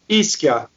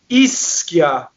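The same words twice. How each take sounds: First: The double S breaks between the two syllables. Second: The double S hisses across both syllables. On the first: This is how non-natives say it. The speaker calls it wrong. "You guys say ischia" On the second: This is how natives say it. The speaker calls it right. "We say ischia"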